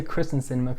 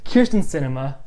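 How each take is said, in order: First: "Kristen" said with the R straight after the K; mistaken name pronunciation. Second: "Kyrsten" said KEER-stin, vowel before the R; corrected name pronunciation. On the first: Explaining the usual slip to viewers, mispronounced "Kristen". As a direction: say "Kristen" as it looks, KRIS-tin. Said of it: "I always wanna say Kristen Sinema". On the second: Correcting the senator's name for viewers, "Kyrsten" as KEER-stin. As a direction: say "Kyrsten" with a long first syllable, KEER. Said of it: "but no". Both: Shown as a demonstration.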